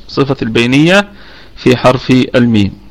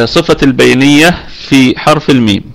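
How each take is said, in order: No difference in how they are said.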